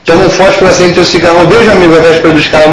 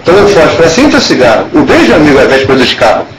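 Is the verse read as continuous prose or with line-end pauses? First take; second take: continuous prose; line-end pauses. First: The lines run together without pauses, like prose. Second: There is a pause at the end of each line. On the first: The verse is treated as ordinary prose. The speaker calls it wrong. "isso não é poesia" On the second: The line breaks are respected so the rhyme is heard. The speaker calls it right. "se ele parou"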